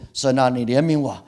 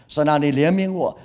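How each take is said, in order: First: Earnest plea to God, a bit louder; pleading prayer. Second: Plea to God pitched higher and louder; rising pleading prayer. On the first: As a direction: beg for mercy from the heart. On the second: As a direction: cry out the plea more urgently. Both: Shown as a demonstration. Pastor voices pleading prayer.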